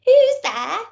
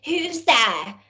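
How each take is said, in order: First: Put-on high, louder old granny call; grandma's voice. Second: Gruff wolf. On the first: Grandma answers the door. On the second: Acted. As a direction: growl it from the bed. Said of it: "said the wolf in a gruff voice".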